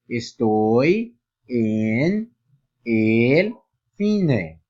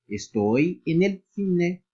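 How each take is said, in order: First: Each word is said separately. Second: The words run together into one another. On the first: "se eu lisse cada palavra" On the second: "Olha como sairia a pronúncia"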